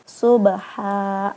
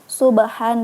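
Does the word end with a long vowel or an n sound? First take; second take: long vowel; n sound. First: The word ends with a long vowel. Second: The word ends with an n sound. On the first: The reader stops at this word. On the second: The reading continues without stopping.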